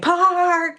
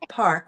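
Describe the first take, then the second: First: The word is said sharply and forcefully. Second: The word is said softly and calmly. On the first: The speaker calls it wrong. "You don't say park" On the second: The speaker calls it right. "nice and nice and easy"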